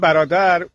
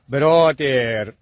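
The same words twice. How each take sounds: First: The word ends short and plain. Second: The end of the word is drawn out. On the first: This is how Persian speakers say it. "ما میگیم" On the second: This imitates how English speakers talk. "اونا هم کلماتشو آخرشو یه خورده میکشم"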